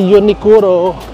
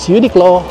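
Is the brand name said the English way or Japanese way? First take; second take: Japanese; English. First: It is said as Japanese 'Unikuro' with four syllables. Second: It is said as English 'Uniqlo' with three syllables. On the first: This is how locals say the name. "Anong pronunciation dito sa Uniqlo?" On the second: This is how the name is known abroad. "also known as"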